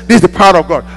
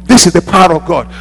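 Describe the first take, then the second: No difference in how they are said.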